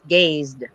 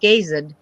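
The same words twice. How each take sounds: First: The ending is a single d sound. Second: The ending is an extra syllable, like gaze-id. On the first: The speaker calls it right. "It's gazed" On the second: The speaker calls it wrong. "It's not gazed"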